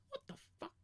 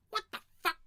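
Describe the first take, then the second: First: High, quick imagined reaction; mock disbelief. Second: Loud, high-pitched imagined reaction; mock outraged disbelief. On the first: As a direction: play stunned disbelief, high and fast. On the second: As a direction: burst out louder in pretend shock. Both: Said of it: "his face go".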